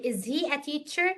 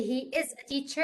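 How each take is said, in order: First: "is he a teacher" slowly, rising on "teacher"; question. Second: "he is a teacher" said as a plain statement. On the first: Teacher repeats the student's inverted sentence, as a rising question. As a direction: ask "is he a teacher" with a lift at the end. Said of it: "قلتي is he a teacher?". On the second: Teacher quotes the sentence before inversion, as a statement. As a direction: state "he is a teacher", no question lift. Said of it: "بدل ما تقولي he is a teacher". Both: Shown as a demonstration.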